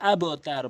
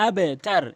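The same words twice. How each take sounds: First: আবতার said "abotar", with an "o" echo; mistaken qalqalah. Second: আবতার said "abetar", bounced downward; correct qalqalah. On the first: Teacher quoting most people's error, আবতার as "abotar". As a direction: round the bounce after b in আবতার to "o". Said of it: "অধিকাংশ লোক আবতার বলে". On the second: Teacher telling learners what to say, আবতার as "abetar". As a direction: give the b in আবতার a short "e" echo. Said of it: "বলতে হবে আবতার". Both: Shown as a demonstration.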